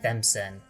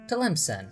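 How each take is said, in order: First: The name begins with a T-H sound. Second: The name begins with a T-L sound. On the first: The speaker calls it wrong. "was seeing that L as an H" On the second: The speaker calls it right. "which I figured out how to properly pronounce"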